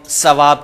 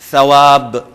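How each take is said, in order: First: The first sound is a hissing s. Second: The first sound is made with the tongue tip. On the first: The speaker calls it wrong. "सवाब कह जाते हैं, सीन अदा करते हैं, जो कि गलत है" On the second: The speaker calls it right. "बिल्कुल जुबान की नोक से"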